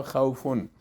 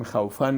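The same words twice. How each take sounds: First: "خوفن" ending in a short u plus n, "-fun"; u sound in the last syllable of "خوفن"; correct khawfun. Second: "خوفن" ending wrongly in "-fan"; khaw-FAN ending on "خوفن"; mispronounced khawfan. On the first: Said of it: "همون صدای پیش تلفظش". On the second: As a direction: say "خوفن" with an a in the last syllable. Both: Shown as a demonstration.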